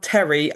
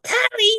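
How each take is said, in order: First: Said in the usual way. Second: Terry called out in an exaggerated California accent; bad California accent. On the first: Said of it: "so if I yelled Terry, I got nothing". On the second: Shown as a demonstration. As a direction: put on a bad Californian twang to call Terry, like Tarry. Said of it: "very bad California accent and call him".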